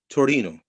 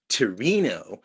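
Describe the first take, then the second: First: It is said with an Italian pronunciation. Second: It is said with an American pronunciation. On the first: The speaker calls it right. "in Italian it's Torino" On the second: The speaker calls it wrong. "not Torino"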